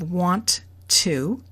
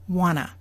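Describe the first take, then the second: First: Both words are said fully, with the T. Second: The T is dropped and the vowel becomes a. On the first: "It is said exactly the way it's written" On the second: "the oo changed to a, and number two, the T sound is gone"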